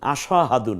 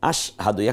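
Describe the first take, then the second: First: An extra vowel is heard after the s. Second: The s joins the h with no vowel. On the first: The speaker calls it wrong. "আসাহাদু না" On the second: The speaker calls it right. "বরং আস"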